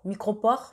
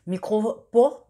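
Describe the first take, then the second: First: Said in the usual way. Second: "micro-pores" drawn out slowly, a bit louder, rising at the end; slow, careful naming. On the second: Shown as a demonstration. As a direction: spell out "micro-pores" slowly so viewers catch the name. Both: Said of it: "c'est des scotch".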